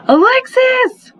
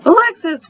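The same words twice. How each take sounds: First: Long, drawn-out yell, much higher and louder; yelling a name. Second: Short sharp yell, higher and a bit louder; yelling a name. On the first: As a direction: call her name out slowly across the house. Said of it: "I yelled". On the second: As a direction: snap her name out fast this time. Calling sister again, furious. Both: Acted.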